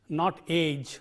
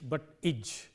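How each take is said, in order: First: The ending has the long 'ay' vowel. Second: The ending has a short 'i' vowel. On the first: The speaker calls it wrong. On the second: The speaker calls it right.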